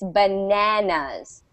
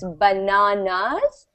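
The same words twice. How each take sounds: First: It is said in an American accent. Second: It is said in a British accent.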